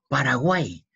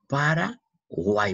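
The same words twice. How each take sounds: First: Said in the usual way. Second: Slow, higher "Paraguay", para, pause, guay; syllable by syllable. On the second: Shown as a demonstration. Teacher pointing out the Y, "Paraguay" slowly split. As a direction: stretch "Paraguay" and break it before guay.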